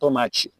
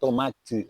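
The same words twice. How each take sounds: First: It is said with a Brazilian Portuguese accent. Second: It is said with a European Portuguese accent. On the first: "O brasileiro fala tomate" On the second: "Português gosta de t"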